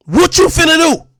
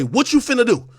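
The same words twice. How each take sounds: First: Louder, higher confrontational demand; angry challenge. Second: Said in the usual way. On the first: Real, not acted. Streamer daring a rival to act, angry challenge. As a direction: throw the challenge in their face.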